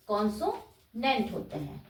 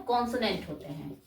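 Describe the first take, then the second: First: "consonant" split slowly into "conso-nent"; consonant in parts. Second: Said in the usual way. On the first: Shown as a demonstration. Teacher repeating the term for learners, "consonant" slowly split. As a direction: break "consonant" before its last syllable, slowly.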